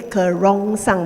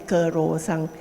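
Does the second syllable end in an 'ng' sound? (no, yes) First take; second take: yes; no. First: The second syllable has a 'rong' sound with ng. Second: The second syllable has a plain 'ro' without ng. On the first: This is the original Malay form of the word. "this is a word from the Malay kerongsang" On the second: This is how the speaker's community says the word. "we don't say the wrong, uh, we say kerosang"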